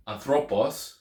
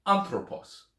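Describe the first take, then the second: First: "anthropos" stressed on the middle syllable, an-THRO-pos; wrong-syllable stress. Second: "anthropos" stressed on the first syllable, AN-thro-pos; correct first-syllable stress. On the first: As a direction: put the beat of "anthropos" on THRO. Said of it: "instead of saying". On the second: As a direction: hit AN at the start of "anthropos". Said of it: "say anthropos". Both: Shown as a demonstration.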